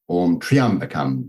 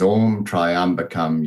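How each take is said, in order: First: The first syllable sounds like 'tree'. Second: The first syllable sounds like 'try'. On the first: The speaker calls it right. "there's no tri, it's tree" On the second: The speaker calls it wrong. "we pronounce it is"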